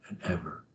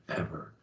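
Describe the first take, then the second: No difference in how they are said.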